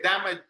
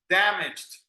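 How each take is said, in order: First: Damaged mispronounced as three syllables, "da-ma-jed"; damaged with a full "jed" ending; wrong extra syllable. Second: Damaged in two syllables, "DAM-ijd"; damaged ending in a quick "jd", no extra syllable; correct -ed ending. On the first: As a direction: sound out the -ed of damaged as its own syllable. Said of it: "you don't say damaged". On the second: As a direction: say damaged with the -ed squeezed into one final consonant. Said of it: "you don't say that". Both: Shown as a demonstration.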